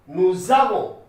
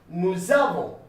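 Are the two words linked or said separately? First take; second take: linked; linked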